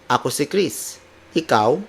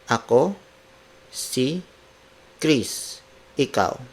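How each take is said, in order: First: The words flow together with natural intonation. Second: Each word is said apart with pauses. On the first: "Now let's apply the intonations" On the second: "word for word"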